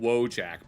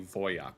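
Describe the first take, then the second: First: The word begins with a W sound. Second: The word begins with a V sound. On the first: This is the common English-speaking pronunciation. "we pronounce it Wojak" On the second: This is the technically correct pronunciation. "but it's technically Voyak"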